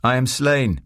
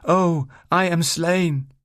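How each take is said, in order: First: Raised voice feeding a Shakespeare line; higher pitch, falling on "slain"; prompting a line. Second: Very high, slow tragic wail; hammed-up Shakespearean dying cry; theatrical death line. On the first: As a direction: prompt an actor with a brief stage cry. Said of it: "I decided to help her out". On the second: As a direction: overact the death, stretching every word. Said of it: "she repeated". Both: A narrator's reading.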